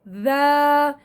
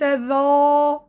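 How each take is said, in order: First: The consonant sounds light and thin. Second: The consonant sounds heavy and emphatic. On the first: The speaker calls it right. "هذا ذا" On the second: The speaker calls it wrong. "وليس ذا ... حيتفخم حرف الذال"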